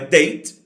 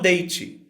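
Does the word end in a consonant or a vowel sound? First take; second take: consonant; vowel. First: It ends on the final consonant sound. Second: It ends with an extra vowel sound. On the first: The speaker calls it right. "A palavra termina na consoante" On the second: The speaker calls it wrong. "e não"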